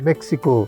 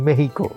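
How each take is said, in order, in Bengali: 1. নামটি সাধারণ নিয়মে উচ্চারণ করা হয়েছে। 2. নামটি স্প্যানিশ নিয়মে উচ্চারণ করা হয়েছে। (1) "আমরা মেক্সিকো বলতেই কমফোর্টেবল" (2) "আপনারা বলেন মেহিকো"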